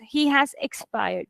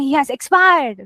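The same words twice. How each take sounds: First: Soft, slow sad reading of He has expired; hushed slow sad news; sad sentence. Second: Said in the usual way. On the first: Shown as a demonstration. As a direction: grieve the loss quietly. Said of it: "if it's a sad sentence". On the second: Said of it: "So you're not gonna".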